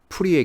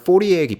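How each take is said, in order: First: The name is said with a Korean-style vowel. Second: The name is said with an English-style vowel. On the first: "한국에서는 프리에라고 할 거예요" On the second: "영어권에서는 포리에 변환이라고 하고"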